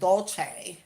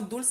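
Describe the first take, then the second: First: The first vowel sounds like 'oh'. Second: The first vowel sounds like 'oo'. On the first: This imitates how someone else mispronounced the name. The speaker calls it wrong. "the way she says it" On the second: This is how the name should be pronounced. The speaker calls it right.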